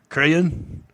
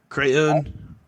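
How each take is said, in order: No difference in how they are said.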